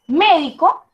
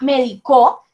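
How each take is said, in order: First: The stress falls on the first syllable. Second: The stress falls on the last syllable. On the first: It refers to the doctor as a person. "me estoy refiriendo a ese sujeto, a esa persona, a ese doctor" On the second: Someone gave me medicine in the past. "el doctor me medicó ayer"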